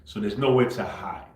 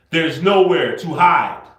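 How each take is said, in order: First: Said in the usual way. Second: Slow, loud, emphatic and higher-pitched warning. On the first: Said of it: "I'm gonna say this very slow". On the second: Real, not acted. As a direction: spell it out forcefully, as if to someone who won't listen. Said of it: "I'm gonna say this very slow for you".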